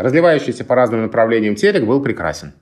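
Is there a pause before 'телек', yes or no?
no. It is read as one smooth phrase without pauses.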